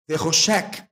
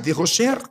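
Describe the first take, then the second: First: The final sound is a hard K sound. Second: The final sound is a soft, non-K sound.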